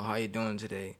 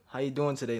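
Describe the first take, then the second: First: The greeting is said flatly, without much energy. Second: The greeting is said warmly, with lively energy. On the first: The speaker is just going through the motions. The speaker calls it wrong. "if you, like, just say" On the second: The speaker genuinely wants to know. The speaker calls it right. "change it up a little bit"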